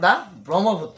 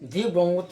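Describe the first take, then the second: First: 'The' is said with a short 'uh' vowel. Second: 'The' is said with a long 'ee' vowel. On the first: The speaker calls it right. "এইটো হ'ব দা Brahmaputra" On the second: The speaker calls it wrong. "এইটো দি ব্ৰহ্মপুত্ৰ নহয়"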